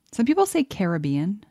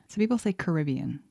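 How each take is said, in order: First: "Caribbean" stressed on the second syllable, kuh-RIB-ee-un. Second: "Caribbean" stressed on the third syllable, ka-ri-BEE-un. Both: Shown as a demonstration.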